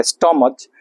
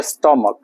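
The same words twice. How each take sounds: First: स्टमच with a CH sound at the end; wrong pronunciation. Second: स्टमक with CH said as K; स्टमक, falling, closed by a K; correct pronunciation. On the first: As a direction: end स्टमच on CH as in bench, not K. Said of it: "आ स्टमच पढ़ेंगे". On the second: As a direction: end स्टमक on a hard K sound. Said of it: "जैसे स्टमक आप लिख रहे हैं". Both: Shown as a demonstration.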